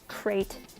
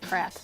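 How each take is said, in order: First: The word is said with a long vowel, 'crate'. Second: The word is said with a short vowel, 'crat'. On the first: "crate invokes the image of a giant box" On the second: "I pronounce it crap"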